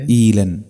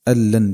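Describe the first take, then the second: First: Long i followed by a single light l. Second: Short a at the start of the word. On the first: This is a minority reading. "بياء بعد الهمزة خفيفة اللام" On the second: This is another minority reading. "بفتح الهمزة"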